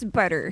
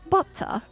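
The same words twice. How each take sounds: First: It is said in an American accent. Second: It is said in a British accent.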